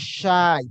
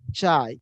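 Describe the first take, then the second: First: The word begins with an sh sound. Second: The word begins with a ch sound.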